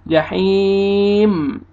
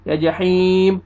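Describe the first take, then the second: First: "जहीम" with long ee and a still, hummed M; slow chanted "जहीम", no bounce on the M; steady final meem. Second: "जहीम" closed with a B-like stop; faulty "जहीम" sounding like "jaheeb"; wrong B ending. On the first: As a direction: close gently on a held M in "जहीम". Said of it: "मीम को आपने हिलाना". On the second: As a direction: end "जहीम" on an abrupt B sound. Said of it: "ऐसे बा का sound में नहीं आना चाहिए". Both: Shown as a demonstration.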